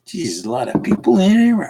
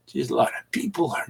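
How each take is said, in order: First: Higher, amazed at the crowd; surprised exclamation. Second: Fast soft whisper; whispered aside. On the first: Host amazed as viewers pile into his stream, surprised. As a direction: gasp it out, startled by all the people. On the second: Host noticing the crowded stream, quick whispered aside. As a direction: murmur it to yourself, awed. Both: Real, not acted.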